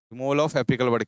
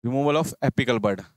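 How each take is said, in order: First: Said in the usual way. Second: Each word drawn out slowly for students to copy; slow dictation. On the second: Shown as a demonstration. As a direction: spell out "removal of apical bud" word by word, very slow. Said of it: "removal of apical bud क्या कहलाती है".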